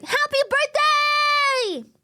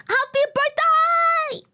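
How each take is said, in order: First: High, slow shouted birthday call. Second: High, slow sung greeting that cracks; voice cracking. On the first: Repeated high shout greeting. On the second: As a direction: stretch it high until the voice breaks. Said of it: "Oh, the voice crack". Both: Real, not acted.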